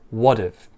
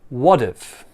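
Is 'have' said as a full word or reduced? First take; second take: reduced; reduced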